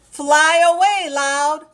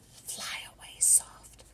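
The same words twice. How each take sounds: First: High, loud call. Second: Very soft whisper. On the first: Librarian calling loudly to the loud bluebird. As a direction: belt it out to the loud bird. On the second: Librarian whispering to the soft bluebird. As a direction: breathe it out gently. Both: Shown as a demonstration.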